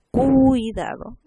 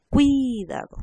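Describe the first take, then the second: First: CUIDADO slow, with a long held U before IDADO; stress on U. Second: CUIDADO with a quick U gliding to a long I; stress on I. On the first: Teacher contrasts possible nuclei, U of CUIDADO stretched. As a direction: drag out the U of CUIDADO. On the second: Teacher shows students the true nucleus, I of CUIDADO stretched. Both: Shown as a demonstration. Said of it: "decimos cuidado".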